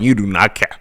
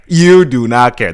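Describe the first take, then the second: First: Said in the usual way. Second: Louder repeat, hitting "You" hard; emphatic YOU. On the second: Real, not acted. Insisting the night is over, stress on "You". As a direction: punch "You" loud, then fall away.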